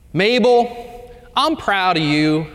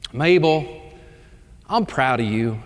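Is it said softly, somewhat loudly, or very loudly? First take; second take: somewhat loudly; softly. First: It is said a little louder. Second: It is said at a normal, soft volume.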